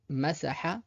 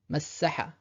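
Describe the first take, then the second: First: Masaha avec un s simple et court; single s. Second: Massaha avec le ss tenu et doublé; massaha, appuyer sur le ss; doubled s. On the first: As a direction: masaha sans shadda, s bref. (masaha, s simple) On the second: (massaha avec shadda, s double) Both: Shown as a demonstration. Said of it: "pour voir directement la différence".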